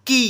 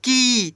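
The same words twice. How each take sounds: First: की with a short clipped ee sound; short i vowel. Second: की with the ee sound stretched long; long ee vowel. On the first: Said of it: "क में छोटी की मात्रा". (की को छोटा बोलें) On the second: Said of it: "बड़ी का उच्चारण थोड़ा अधिक होता है". (की को लंबा खींचकर बोलें) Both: Shown as a demonstration.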